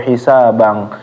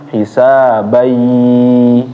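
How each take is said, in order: First: The word ends with an ng sound. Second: The final n merges into a y sound. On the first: The speaker calls it wrong. "atau hisabang" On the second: The speaker calls it right. "jadi dimasukin ya"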